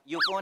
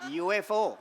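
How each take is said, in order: First: It is said as one blended word. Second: It is said as three separate letters. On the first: The speaker calls it wrong. "युफो नाही" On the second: The speaker calls it right. "ती अद्याक्षरं आहेत, initials"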